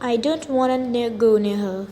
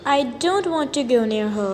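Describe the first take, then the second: First: 'Want to' is reduced to a quick 'wanna'. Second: 'Want to' is said fully, both words clear.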